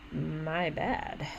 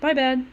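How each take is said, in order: First: It is said in a cold, hostile tone. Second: It is said in a light, casual tone. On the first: It is a fake apology that provokes a fight. "say coldly" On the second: It is a friendly apology taking responsibility. "a straightforward, casual apology"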